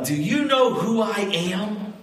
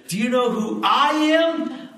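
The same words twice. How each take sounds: First: Higher, self-important question; a mild show of pulling rank; the governor claiming rank for extra chicken; pompous governor. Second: High, louder sassy comeback; a feisty lady scolding the governor; sassy church lady. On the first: Governor pulls rank at picnic. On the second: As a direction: fire it back at him, indignant and high. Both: Retold or imitated.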